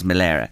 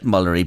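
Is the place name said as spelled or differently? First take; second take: differently; as spelled. First: The name is said differently from its spelling. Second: The name is said as it is spelled. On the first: The speaker calls it right. "but it is Malera" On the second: The speaker calls it wrong. "It's spelt Mullery"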